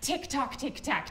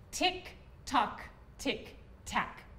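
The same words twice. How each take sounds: First: It is said very fast. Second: It is said at a normal speed.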